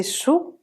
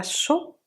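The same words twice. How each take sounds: First: "sou" with a rounded oo vowel; corrected "sou" with tight oo. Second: "so" with an o vowel; wrong O vowel. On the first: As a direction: say "sou" like French sous. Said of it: "c'est sou". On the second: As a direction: say "so" with open lips, not oo. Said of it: "c'est pas so". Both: Shown as a demonstration.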